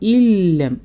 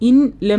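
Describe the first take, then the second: First: The n merges fully into a doubled l. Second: The n is pronounced separately before the l. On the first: The speaker calls it right. "മുഴുവനായി ലയിപ്പിച്ചിട്ട് പോകണം" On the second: The speaker calls it wrong. "ഇൻ ലം എന്ന് പറയരുത്"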